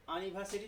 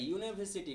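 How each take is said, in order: First: यूनिवर्सिटी said as "a-niversity"; wrong pronunciation. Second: यूनिवर्सिटी said as "yoo-niversity"; correct pronunciation. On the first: Teacher telling students not to read यूनिवर्सिटी so, wrong pronunciation. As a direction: open यूनिवर्सिटी on "uh", without the y glide. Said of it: "यूनिवर्सिटी नहीं पढ़ता है". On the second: Teacher showing students how to read यूनिवर्सिटी, correct pronunciation. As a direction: open यूनिवर्सिटी on a clear "yoo". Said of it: "यूनिवर्सिटी पढ़ते हैं". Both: Shown as a demonstration.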